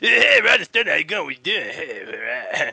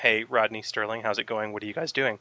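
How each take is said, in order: First: It is said in Russell's grunting, mumbled way. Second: It is said clearly in a normal voice.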